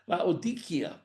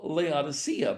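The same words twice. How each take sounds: First: The c is said with a hard sound. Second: The c is said with a soft sound. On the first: The speaker calls it right. "the C being a, a hard sound" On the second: The speaker calls it wrong. "what we often call Laodicea, but that's not the way it's even written in Greek"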